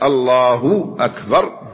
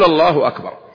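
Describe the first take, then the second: First: The u after the h is stretched long. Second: The u after the h is kept short. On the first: The divine name becomes a word that is not a name of God. The speaker calls it wrong. "يزيد في الضم حتى يخرجها على مخرج الواو" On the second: The divine name is said as it should be. The speaker calls it right. "فليخفف فتتبين الضم"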